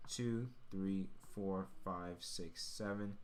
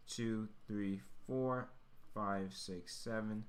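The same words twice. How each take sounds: The two takes are said the same way.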